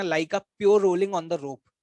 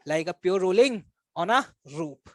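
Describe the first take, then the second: First: Said in the usual way. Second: "pure rolling... on a... rope" slowly, in separated chunks; very slow, spaced-out "rolling on a rope"; emphatic repetition. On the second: Shown as a demonstration. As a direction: pause after "rolling", then draw out "on a" and set "rope" apart. Teacher repeats the phrase word by word.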